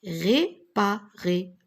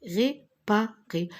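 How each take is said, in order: First: Réparer slowly syllable by syllable. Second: Réparer slowly with falling end; slow syllables. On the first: (réparer syllabé lentement) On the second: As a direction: sound out réparer again. (réparer syllabé) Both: Shown as a demonstration. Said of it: "R et ré".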